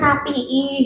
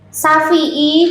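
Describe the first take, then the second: First: The middle consonant is a p sound. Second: The middle consonant is an f sound. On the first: "jadinya sapi'i" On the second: "Kalau ngomong F itu kangelan"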